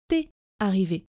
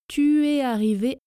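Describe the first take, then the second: First: The vowel of 'tu' is dropped entirely. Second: The vowel of 'tu' is pronounced in full. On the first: "Quand je parle vite, je prononce t'es arrivé. Le U de tu disparaît" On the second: "dans la première partie de la phrase"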